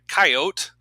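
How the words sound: Coyote is said in a Dakota regional pronunciation.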